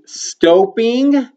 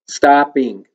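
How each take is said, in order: First: The first vowel is a long O sound. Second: The first vowel is a short ah sound. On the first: The speaker calls it wrong. "the vowel's going to say its long sound, O" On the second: The speaker calls it right. "continue to say ah for stopping"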